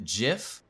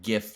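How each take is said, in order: First: The word begins with a J sound. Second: The word begins with a hard G sound. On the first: "J I F, like that's how you'd pronounce it" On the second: "with just like the G, just the G I F"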